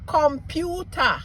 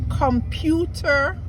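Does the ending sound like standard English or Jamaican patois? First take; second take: Jamaican patois; standard English. First: The ending is said as a Jamaican patois 'a'. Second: The ending is said as in standard English.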